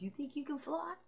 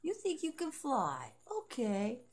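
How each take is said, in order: First: High, teasing question with a rising end; a high mock question that lifts at the end; mocking taunt. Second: High and slow, settling down on the end; a high, slow taunt that falls; slow mocking taunt. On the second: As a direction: drag it out smugly. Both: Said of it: "she goes".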